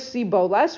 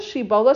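First: The word begins with an 's' sound. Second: The word begins with an 'sh' sound. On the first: The speaker comes from the enemy tribe. The speaker calls it wrong. "with a samach" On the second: The speaker belongs to the local tribe. The speaker calls it right. "all you have to say is"

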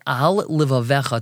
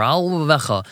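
First: Each word is said clearly and separately. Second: The words are run together and blurred. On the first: The speaker calls it right. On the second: The speaker calls it wrong.

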